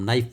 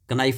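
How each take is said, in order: First: The word starts with n, k is silent. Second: The k sound is pronounced before the n. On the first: The speaker calls it right. "नाइफ बोलते हैं" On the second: The speaker calls it wrong. "कनाइफ नहीं बोलते हम"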